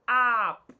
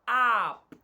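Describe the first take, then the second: First: The vowel is a short open uh sound. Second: The vowel is a short open uh sound.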